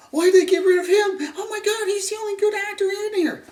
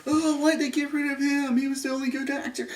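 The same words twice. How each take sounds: First: High, loud exaggerated whine; hammed-up whiny fans. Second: Lightly voiced whiny fan; a hint of a complaining fan; mocking fans. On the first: Mocking everybody's outrage at his death, high loud whine. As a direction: overplay the outraged fan. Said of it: "this is my, everybody else". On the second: Mocking fans upset he was killed, light whiny voice. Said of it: "everybody's like".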